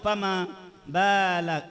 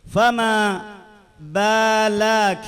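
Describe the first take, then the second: First: The second vowel of balak is short. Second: The second vowel of balak is lengthened. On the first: The speaker calls it right. "فقط هنا فما بالك" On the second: The speaker calls it wrong. "زدت مدا"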